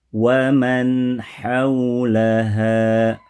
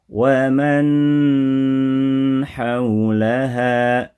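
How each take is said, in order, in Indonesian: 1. Frasa mengalir merata tanpa dipanjangkan atau terputus. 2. Bunyi sengau dipanjangkan terlalu lama.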